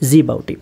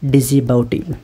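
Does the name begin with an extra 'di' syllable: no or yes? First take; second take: no; yes. First: It starts directly with 'ji', no extra syllable. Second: It starts with an extra 'di' syllable. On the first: The speaker calls it right. "ఈ ఐ లేదు ఇక్కడ" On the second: The speaker calls it wrong. "డిజిబౌటి ఆర్ జీబౌటి we call it as"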